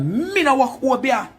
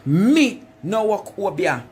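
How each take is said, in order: First: Said in the usual way. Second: Slowed down, every word pressed; Me no work obia, said slow and deliberate; slow emphatic denial. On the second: Real, not acted. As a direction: lay it down slowly and firmly.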